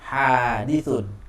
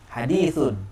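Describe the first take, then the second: First: The vowel in the first syllable is long. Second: The vowel in the second syllable is long. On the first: It means something new that has a beginning. "hanya panjang" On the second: It means a saying of the Prophet. "dalnya panjang"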